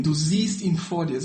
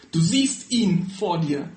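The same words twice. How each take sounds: First: Said in the usual way. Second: Slow, weighty words of Jesus; a solemn slow reveal. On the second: Acted. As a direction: let each word of Du siehst ihn vor dir land slowly. Jesus reveals himself, reading the passage.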